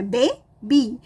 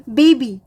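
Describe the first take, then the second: First: बे, बी as two separate syllables; split into syllables. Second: Said in the usual way. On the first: Shown as a demonstration. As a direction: pause between बे and बी. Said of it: "बेबी दो syllable है". (बे और बी अलग-अलग, रुककर) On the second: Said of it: "दो syllable है".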